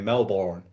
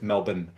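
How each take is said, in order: First: Melbourne is said the way Americans say it. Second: Melbourne is said the way locals say it.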